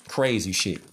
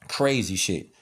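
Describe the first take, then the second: No difference in how they are said.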